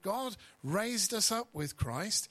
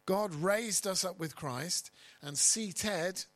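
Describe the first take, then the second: First: Said in the usual way. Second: Raised and seated stressed, slow, higher and louder; slow emphatic reread; stress on past tense. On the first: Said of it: "I'll read that again". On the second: Shown as a demonstration. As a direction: drive home raised and seated as done deeds. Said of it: "past tense".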